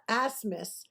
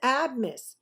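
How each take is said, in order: First: The name is said with an S sound. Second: The name is said with a B sound. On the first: The speaker calls it wrong. "You can't just turn a B into an S" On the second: The speaker calls it right. "It is Abmis"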